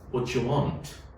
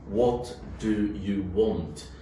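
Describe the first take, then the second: First: Do and you blend into a j sound. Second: Do and you are said as separate words. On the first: "In connected speech" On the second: "look at the pronunciation of"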